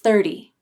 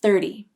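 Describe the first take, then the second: First: The middle T is a quick, light D-like flap. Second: The same.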